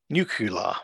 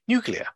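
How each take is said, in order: First: A consonant is moved to another position. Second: The sounds are in the standard order. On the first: The speaker calls it wrong. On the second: The speaker calls it right.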